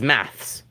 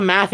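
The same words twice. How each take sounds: First: "maths" with s following th; British plural. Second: "math" as plural, ending on th; North American plural. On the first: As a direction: finish "maths" on a ths cluster. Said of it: "plural of math in Britain is maths". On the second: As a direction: leave the s off "math". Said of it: "plural of math in North America is math". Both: Shown as a demonstration.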